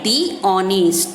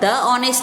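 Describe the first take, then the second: First: The article is said with a long 'thee' vowel. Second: The article is said with a short 'thuh' vowel. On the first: The speaker calls it right. "Correct इसका pronounce क्या है" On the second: The speaker calls it wrong. "the honest नहीं बोलेंगे कभी भी हम"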